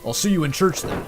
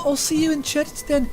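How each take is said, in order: First: It is said in a near-natural voice. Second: It is said in a put-on character voice. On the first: The speaker calls it wrong. "We almost did a true voice reveal for a second there" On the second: The speaker calls it right. "that that's Freya"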